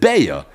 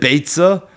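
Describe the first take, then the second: First: No 'ts' sound is heard mid-word. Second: A clear 'ts' sound is heard mid-word. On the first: This is how people customarily say it. "the Minig Yisrael is to refer to the Masechta as Masechta's Beya" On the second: This is how the letters spell it. "According to the Aleph Bina, the way you would read it is Beitza"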